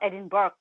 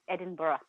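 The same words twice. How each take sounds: First: The ending is said like 'berg'. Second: The ending is not said like 'berg'. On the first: The speaker calls it wrong. "not Edinburgh the way it's spelled" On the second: The speaker calls it right. "It's Edinburgh"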